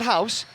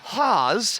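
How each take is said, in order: First: The vowel sounds like the one in house. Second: The vowel sounds like the one in pause. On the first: The speaker calls it wrong. "but not house" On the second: The speaker calls it right. "It's Haas, rhymes with pause"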